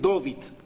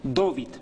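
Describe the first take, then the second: First: The name is said with an O sound. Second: The name is said with an O sound.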